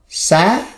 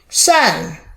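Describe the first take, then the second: First: It is said with the second tone. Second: It is said with the fourth tone. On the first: "The second tone" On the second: "Fourth tone"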